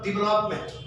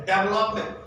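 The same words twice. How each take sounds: First: Development opening with 'di', not 'dev'; corrected pronunciation. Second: Development with first syllable said 'DEV'; common mispronunciation. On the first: Shown as a demonstration. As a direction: model development as di-VE-lopment. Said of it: "instead of development". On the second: Retold or imitated. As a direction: imitate students saying development with 'dev' first. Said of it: "They say development instead of development".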